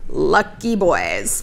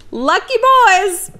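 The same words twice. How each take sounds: First: Lower, very slow dry repeat; low deadpan. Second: Higher, slow sarcastic sing-song; high mocking drawl. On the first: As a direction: drop it flat and slow. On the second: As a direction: tease it, stretched out high. Ironic aside. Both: Real, not acted.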